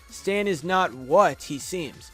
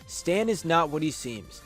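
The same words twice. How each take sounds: First: The word 'what' carries strong stress. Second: The word 'what' carries no special stress. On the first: He was or is someone else. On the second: His secret is only what he is doing.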